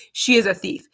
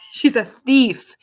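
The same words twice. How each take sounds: First: IS stressed to insist on the accusation; insistent repeat, weight on IS. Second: Higher, louder, drawn-out mock accusation; slow, loud playful charge of THIEF. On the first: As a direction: lean on the word "is". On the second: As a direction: draw out THIEF in playful outrage. Jokingly accusing her little daughter. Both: Real, not acted.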